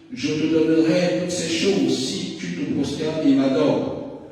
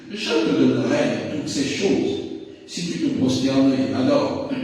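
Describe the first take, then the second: The two takes are said the same way.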